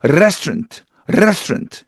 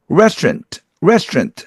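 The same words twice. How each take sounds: First: Italian-accented restaurant with a trilled r. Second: Restaurant with a smooth untrilled r; plain English r. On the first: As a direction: roll a long Italian r into restaurant. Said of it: "이렇게 혀가 굴러가거든요". (혀를 굴리는 이탈리아식 억양) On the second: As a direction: say restaurant the standard American way. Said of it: "하면 될 것 같다가". (혀를 굴리지 않고 restaurant) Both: Shown as a demonstration.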